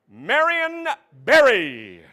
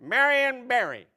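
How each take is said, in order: First: Slow, louder name reading; slow announcer. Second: Said in the usual way. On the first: Pretend. Host announcing the word, slow. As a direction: draw the name out.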